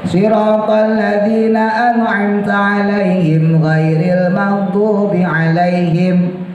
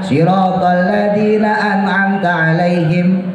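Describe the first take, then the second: First: It runs straight on without stopping after 'alaihim. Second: It stops with a pause after 'alaihim. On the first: The speaker calls it right. "Intinya lam alifnya kita tabrak" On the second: The speaker calls it wrong. "Jadi jangan siratal ladzina an'amta 'alaihim, berhenti"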